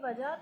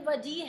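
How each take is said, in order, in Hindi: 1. j के बाद 'a' स्वर है। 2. j के बाद 'i' स्वर है। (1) "ये वजह तो नहीं है" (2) "ये वजी है"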